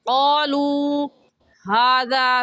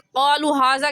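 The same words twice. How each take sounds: First: The vowel in qalu is drawn out long. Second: The vowel in qalu is cut short. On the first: The speaker calls it right. "एक अलिफ की मिक़दार खींचेंगे" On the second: The speaker calls it wrong. "क़ालू हाज़ा कहना गलत है"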